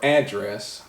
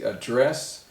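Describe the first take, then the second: First: The stress is on the first syllable. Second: The stress is on the second syllable. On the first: The street location where somebody lives. "the stress is on the first syllable" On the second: To speak to somebody. "the stress is on the second syllable"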